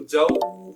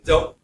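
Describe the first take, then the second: First: The word is stretched out and held long. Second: The word is cut off with a sudden jolt. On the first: "इतना लंबा भी नहीं करेंगे खींचकर" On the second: "ना झटका देंगे जैसे"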